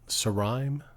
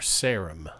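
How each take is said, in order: First: The vowel is a long I sound. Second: The vowel is a short I sound. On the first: "Like a long I" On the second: "or a short I"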